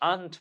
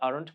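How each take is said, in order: First: It is said with a British accent. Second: It is said with an American accent.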